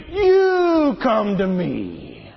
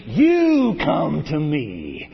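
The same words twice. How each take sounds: First: Slow, with YOU stressed; emphatic David. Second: YOU stressed and drawn out slowly; emphatic David. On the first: Shown as a demonstration. Preacher relishing David's reply, very slow. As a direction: draw "You come to me" out, leaning on "You". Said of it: "I love that". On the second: Acted. David answering the giant, stressing "You" slowly. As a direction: lean on "You", very slow. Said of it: "But David said to the Philistine".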